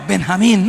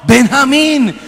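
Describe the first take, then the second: First: Answering with a simple name; plain retold answer. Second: High, loud repetition of the name; insistent answer. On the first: Possessed man answers the name question, fairly plain. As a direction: give the name with only slight lift. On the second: Retold or imitated. Possessed man repeats his name to exorcist, insistent. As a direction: push the name out higher and louder.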